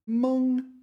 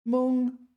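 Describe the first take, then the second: First: The syllable has a high level first tone. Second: The syllable has a high level first tone.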